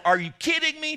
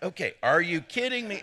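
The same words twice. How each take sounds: First: Much higher and louder, shocked blurt; over-the-top amazed shout at a shop clerk; incredulous exclaim. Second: Laughing through a mock parrot of the line; chuckling mock echo; mocking the audience. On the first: Pretend. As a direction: fire it at a stranger in mock disbelief. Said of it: "To the girl behind the counter". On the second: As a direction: tease them by echoing it with a laugh. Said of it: "You're like".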